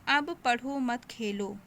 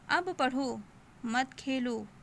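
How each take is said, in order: First: It is said straight through without a pause. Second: There is a short pause after the second word. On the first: The meaning is unclear. The speaker calls it wrong. "भाव स्पष्ट नहीं हो रहा है" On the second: Study now, do not play. The speaker calls it right. "तो हम वहाँ पर थोड़ा रुकेंगे"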